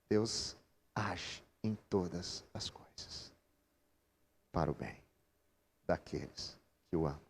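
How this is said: The stress falls on todas as coisas. God acts in every situation, even hard ones. The speaker calls it right. "Ela está em todas as coisas"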